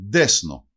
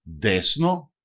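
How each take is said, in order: First: Ντέσνο with a d start, desno; teacher demo of ντέσνο; example word. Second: Ντέσνο again, slowly, as desno; teacher repeats ντέσνο. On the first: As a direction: say ντέσνο clearly. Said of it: "Παράδειγμα". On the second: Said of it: "Ντέσνο σημαίνει δεξιά". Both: Shown as a demonstration.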